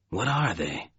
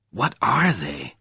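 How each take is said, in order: First: Softer, quiet question with falling end; murmured question. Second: Slow, insistent question. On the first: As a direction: ask it under your breath. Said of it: "he murmured". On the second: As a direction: press for an answer, word by word. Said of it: "He insisted". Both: A narrator's reading.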